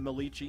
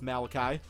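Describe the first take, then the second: First: The name is said like 'Milici'. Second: The name is said like 'Malachi'. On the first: The speaker calls it wrong. "I used to pronounce him Milici" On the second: The speaker calls it right. "I do know now it's Malachi"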